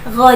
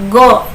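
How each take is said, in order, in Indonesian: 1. Konsonan pertama lembut dan mengalir. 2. Konsonan pertama adalah hambat keras. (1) "yang betul adalah lembut saja" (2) "jadi tidak"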